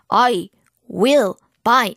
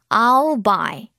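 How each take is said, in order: First: The words are said separately, with breaks. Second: The words are linked smoothly together.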